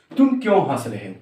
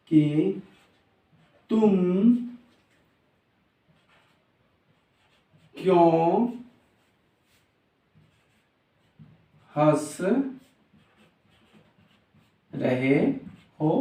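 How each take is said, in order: First: Said in the usual way. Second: Single words with very long gaps; very slow dictation. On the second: Shown as a demonstration. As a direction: stretch each word as if writing it out. Writes the sentence while saying it. (बहुत धीरे, एक-एक शब्द रुक कर)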